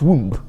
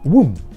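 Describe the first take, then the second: First: The final b is pronounced. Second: The final b is silent. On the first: The speaker calls it wrong. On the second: The speaker calls it right. "the B becomes silent"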